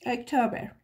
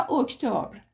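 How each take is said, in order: First: "اکتبر" with a vowel in the last syllable, -ber; alternative pronunciation. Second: "اکتبر" ending in a consonant cluster, -br; alternative pronunciation. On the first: («اکتبر» با تلفظ اُکتوبِر) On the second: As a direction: say "اکتبر" as ok-tobr. («اکتبر» با تلفظ اُکتُبر) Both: Shown as a demonstration.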